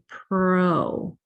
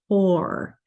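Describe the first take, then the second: First: The R sound comes before the vowel. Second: The R sound comes after the vowel. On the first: The speaker calls it wrong. "your mouth is naturally going to want to say pro" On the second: The speaker calls it right. "instead of poor"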